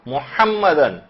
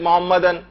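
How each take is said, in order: First: The h sound is strong and throaty. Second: The h sound is light and soft. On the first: The speaker calls it right. "हा सही निकालनी" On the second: The speaker calls it wrong. "अगर आपने हल्के से मोहम्मदन"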